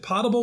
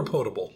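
First: Potable said with a short "ah", POT-able; first-vowel variant. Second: Potable said with a long "oh", POE-table; long "oh" in the first syllable of potable; second-vowel variant. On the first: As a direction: say potable to rhyme with "notable" but with an "ah". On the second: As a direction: say potable with the "oh" of "boat". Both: Shown as a demonstration. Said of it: "how it's pronounced".

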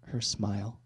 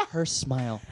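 First: Soft, slow payoff line; smooth line delivery. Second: Giggling repeat of the punchline; laughing through the punchline. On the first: Guy finishing his pickup line to a girl, smooth and low. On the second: Guy repeating his own punchline to friends, laughing. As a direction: say it again while cracking up. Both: Retold or imitated.

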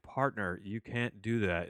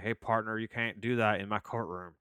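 First: Said in the usual way. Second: Put-on Southern accent. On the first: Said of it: "saying it in his normal John Malkovich voice". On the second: Judge telling off a defendant in his courtroom, in a Southern accent. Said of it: "doesn't do it with a Southern accent".

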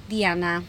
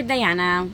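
First: Diana said as dee-AH-na; "Diana" with a Spanish ee in the first syllable; Spanish pronunciation. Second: Diana said as die-AN-uh; "Diana" with an English eye in the first syllable; English pronunciation. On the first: Host giving listeners her own name, Spanish pronunciation of Diana. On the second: Host offering listeners another name option, English pronunciation of Diana. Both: Shown as a demonstration. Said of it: "whichever you wanna call me".

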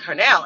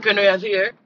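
First: Said in the usual way. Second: Lightly imitated Jamaican accent. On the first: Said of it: "they were like". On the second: Stepfather asking at the neighbor's door, mild Jamaican accent. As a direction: ask with a touch of Jamaican accent. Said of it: "he had a Jamaican accent".

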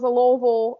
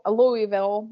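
First: Louisville said as "Loo-vul", two quick syllables; Louisville swallowed into "Loo-vul"; local Louisville. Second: Louisville said as "Loo-ee-vil", three clear syllables; careful "Loo-ee-vil" for Louisville; spelled-out Louisville. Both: Shown as a demonstration. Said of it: "however you pronounce it".

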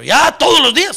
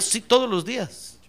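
First: Louder, higher objection; balking protest. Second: Slow, unhurried insistence; firm confirmation. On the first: Helper complaining to pastor about the duty, balking protest. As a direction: protest at the unwelcome daily chore. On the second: Pastor answering the balking helper, slow firm confirmation. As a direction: confirm it firmly, without raising the voice. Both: Acted.

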